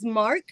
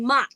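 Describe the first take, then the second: First: The R is pronounced after the vowel. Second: The R is dropped, New Jersey style.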